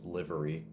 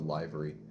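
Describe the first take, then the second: First: The start sounds like the word 'liver'. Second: The start does not sound like 'liver'. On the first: The speaker calls it wrong. "Everyone else tells me it's livery because liver" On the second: The speaker calls it right. "I pronounce it livery"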